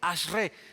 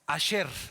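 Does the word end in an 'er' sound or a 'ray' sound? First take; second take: ray; er. First: The word ends with a 'ray' sound. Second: The word ends with an 'er' sound.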